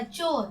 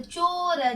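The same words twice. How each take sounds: First: Said in the usual way. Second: चोर said as long चो, then र; चोर in two slow pieces, चो... र; sounded out. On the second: Shown as a demonstration. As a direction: pull चोर apart for learners. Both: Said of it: "इन शब्दों को दोहराते हैं".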